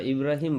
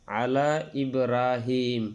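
First: ইব্রাহিম said quick and clipped, no stretch; wrong short version. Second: আলা ইব্রাহিম with the vowel held long and slow; correct long madd. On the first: Teacher showing students the forbidden short ইব্রাহিম. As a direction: say ইব্রাহিম short to show the mistake. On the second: Teacher contrasting right and wrong recitation, stretched. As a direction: draw out ইব্রাহিম slowly across three alif. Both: Shown as a demonstration. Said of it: "ইব্রাহিম বলা যাবে না".

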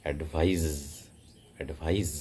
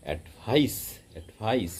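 First: অ্যাডভাইস ending in a buzzing voiced z; English advise. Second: অ্যাডভাইস with a sharp voiceless s, stress on the second syllable; English advice. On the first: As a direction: say অ্যাডভাইস as ad-VIZE with a z sound. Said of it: "জেট সাউন্ডের মতো হবে". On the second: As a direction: say অ্যাডভাইস as ad-VICE with a hissing s at the end. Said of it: "second সিলেবেলে স্ট্রেসটা পড়বে". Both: Shown as a demonstration.

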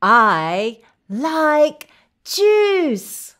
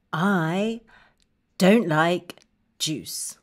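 First: Very slow, drawn-out delight; slow, emphatic happy declaration; enthusiastic liking. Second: Low and downcast, word by word; halting, subdued refusal; glum dislike. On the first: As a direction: stretch each word happily for kids. Modelling liking juice for children. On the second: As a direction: say it low and disappointed. Modelling dislike of juice. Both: Shown as a demonstration.

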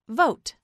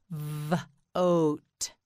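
First: Said in the usual way. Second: "Vote" split into vvv... ote; sounded out. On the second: Shown as a demonstration. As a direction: hold the V, pause, then finish "Vote". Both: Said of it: "This word is vote".

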